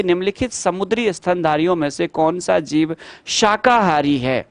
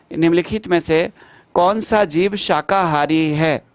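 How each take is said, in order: First: Said in the usual way. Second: Slow re-read. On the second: Shown as a demonstration. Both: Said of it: "question re-read slowly".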